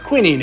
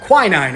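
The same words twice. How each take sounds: First: It is said in a non-American pronunciation. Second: It is said in an American pronunciation.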